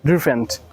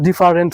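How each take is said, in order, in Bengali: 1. শব্দটির উচ্চারণ আমেরিকান ধাঁচের। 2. শব্দটির উচ্চারণ বাংলা ধাঁচের। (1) "আমেরিকান ইংলিশ অনুযায়ী" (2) "এটা কিন্তু ডিফারেন্ট হবে না"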